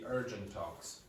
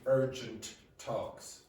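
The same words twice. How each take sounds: First: The two T sounds merge into one. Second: Both T sounds are pronounced separately. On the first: The speaker calls it right. "It'll be urgent talks" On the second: The speaker calls it wrong. "So it won't be urgent talks"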